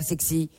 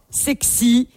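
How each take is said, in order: First: "sexy" said much lower and softer, breathy-free murmur; sultry low sexy. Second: Said in the usual way. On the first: Shown as a demonstration. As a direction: drop "sexy" low and soft to seduce. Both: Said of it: "faut le mettre".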